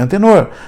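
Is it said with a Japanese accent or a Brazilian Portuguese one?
Brazilian Portuguese. It is said in Brazilian Portuguese, ending in r.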